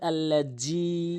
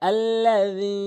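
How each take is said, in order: First: The middle consonant is a z sound. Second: The middle consonant is a soft th sound. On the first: The speaker calls it wrong. "অধিকাংশ লোক আল্লাজি" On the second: The speaker calls it right. "জিব্বার আগা দাঁতের আগা"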